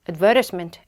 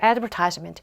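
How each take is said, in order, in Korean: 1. 영국식 억양으로 발음됐어요. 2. 미국식 억양으로 발음됐어요. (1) "advertisement라고 발음을 했고요. 어, 호주, 영국 오빠들은 저래요" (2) "미국 오빠가 만나면 advertisement라고 읽어줄 거예요"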